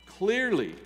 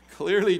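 First: Said in the usual way. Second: "Clearly" said through a laugh, louder; laughing restart. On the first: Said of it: "Jesus is calling right now". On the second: Real, not acted. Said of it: "I hear the phone".

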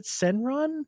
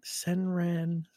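First: "Senran" with an open "ah" in the last syllable, pitched up; questioning pronunciation. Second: "Senran" with the last vowel as in "ran", said softly; tentative pronunciation. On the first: Host checking a hard game title, questioning "Senran" with an "ah" ending. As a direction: ask it as "sen-RAHN", higher. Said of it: "Is it Senran?". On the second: Host attempting a hard game title, softly testing "Senran" with a "ran" ending. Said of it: "Is that hard? Is that one?". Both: Shown as a demonstration.

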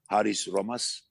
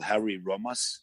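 First: "Haris Romas" said the Greek way; Greek name pronunciation. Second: "Harry Romas" said the English way; anglicized name. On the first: Guest correcting a name for the hosts, Greek pronunciation. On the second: Guest naming a Greek writer to the hosts, anglicized. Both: Shown as a demonstration. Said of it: "he's a Greek".

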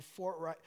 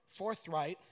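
First: "forthright" with a T in place of TH; slipped pronunciation. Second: Said in the usual way. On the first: Real, not acted. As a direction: say "forthright" as fort-right. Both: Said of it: "not Fortnite".

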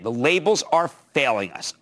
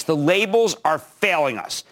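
First: Said in the usual way. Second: "The labels are failing us" said slowly, every word weighted, falling at the end; slow emphatic statement. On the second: Shown as a demonstration. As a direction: lean hard on "labels" and draw out "The labels are failing us".

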